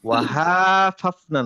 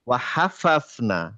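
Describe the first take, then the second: First: The vowel after the h is stretched long. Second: The vowel after the h is kept short. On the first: The speaker calls it wrong. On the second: The speaker calls it right.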